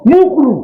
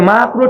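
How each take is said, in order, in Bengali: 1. প্রথম স্বরধ্বনিটি একটি গোলাকার 'u' ধ্বনি। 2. প্রথম স্বরধ্বনিটি একটি খোলা 'a' ধ্বনি। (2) "মাকরু ঠিক করে বলে না"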